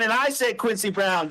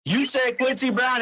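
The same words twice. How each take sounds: First: "I" stressed with a falling close. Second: "You" pushed up with a rising tune; stress on you. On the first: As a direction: push the weight onto "I" to set it against "You". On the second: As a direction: land on "You", not on Quincy Brown. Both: Real, not acted. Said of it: "You keep bringing it back to you".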